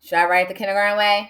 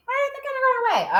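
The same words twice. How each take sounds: First: Said in the usual way. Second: Squeaky-high, quick echo; very high, fast put-on voice; high-pitched answer. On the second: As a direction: answer yourself in a tiny high voice. Voices an answer to own question.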